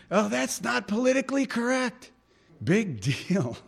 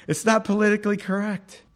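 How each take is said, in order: First: A high, mocking sneer at political correctness; sneering crowd voice. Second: Said in the usual way. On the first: Preacher mocks the crowd's sneer at believers, high and scornful. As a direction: whine it like a scornful onlooker.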